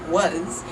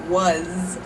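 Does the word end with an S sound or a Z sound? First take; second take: Z sound; Z sound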